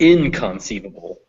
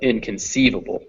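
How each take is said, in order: First: The main stress falls on a syllable other than ceive. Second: The main stress falls on the syllable ceive. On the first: The speaker calls it wrong. "not inconceivable" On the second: The speaker calls it right. "So sieve takes the stress"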